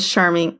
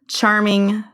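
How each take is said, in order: First: The word begins with a soft sh sound. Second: The word begins with a hard ch sound. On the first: The speaker calls it wrong. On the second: The speaker calls it right.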